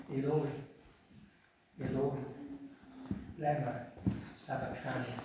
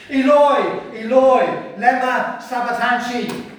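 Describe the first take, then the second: First: Low, hushed, weak cry; deliberately understated, much too quiet. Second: High, full-voiced shout; loud, desperate calling out; loud cry. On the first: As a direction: murmur it softly with long pauses. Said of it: "Except he didn't say in a quiet voice. He didn't whisper it". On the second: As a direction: cry it out in anguish. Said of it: "he cried out in a loud voice". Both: Shown as a demonstration.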